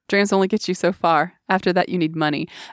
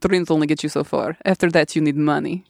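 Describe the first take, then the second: First: It is spoken in a plain, unaccented voice. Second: It is spoken in a put-on Russian accent.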